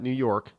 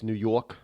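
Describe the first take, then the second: First: It is said in a general American accent. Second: It is said in a local New York accent. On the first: "not New York" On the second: "down in the uh, tri-state area, it's New York"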